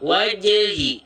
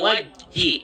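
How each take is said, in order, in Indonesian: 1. Bunyi j dilepas dengan pantulan. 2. Bunyi j berhenti datar tanpa pantulan. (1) "pantulkan dia" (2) "Jangan sampai"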